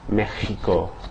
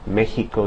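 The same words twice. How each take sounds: First: The x is a strong raspy throat sound. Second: The x is a light breathy h sound. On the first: "you might have a little bit more friction" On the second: "Instead of"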